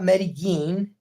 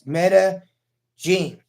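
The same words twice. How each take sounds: First: The 'll' is not said as a 'j' sound. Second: The 'll' is said as a 'j' sound. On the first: The speaker calls it wrong. "It's not Medellin" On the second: The speaker calls it right. "like jean shorts, like Daisy Dukes"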